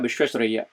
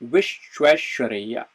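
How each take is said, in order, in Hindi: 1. शब्द जल्दी और हड़बड़ी में बोला गया है। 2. शब्द धीरे और ध्यान से बोला गया है। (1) "वो कट जाएगा क्योंकि फोनेटिक्स उतने समय में प्रोसेस नहीं हो पाएगी" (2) "जो शब्द है उसको जो है हम तरीके से उच्चारण करें"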